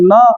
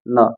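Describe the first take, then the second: First: It is said loudly. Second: It is said softly.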